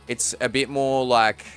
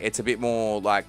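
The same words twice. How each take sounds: First: It is spoken with a higher pitch. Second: It is spoken with a lower pitch. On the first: "they're like" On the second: "instead of like"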